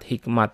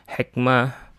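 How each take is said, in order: First: The word ends with a T sound. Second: The word ends with an H sound. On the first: This is how it is said in Indonesia. "tak marbutah yang dibaca ta" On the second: This is the original Arabic form. "aslinya dalam bahasa Arabnya"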